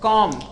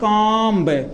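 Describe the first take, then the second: First: The word ends in an m sound. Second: The word ends with an audible b sound. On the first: The speaker calls it right. "कॉम पढ़ेंगे" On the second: The speaker calls it wrong. "कभी कभी पढ़ते हैं कॉम्ब, ... जो कि ये गलत होता है"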